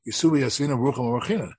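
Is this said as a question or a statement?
statement. It is said as a plain statement. You sit without making a blessing. "The Gemara says"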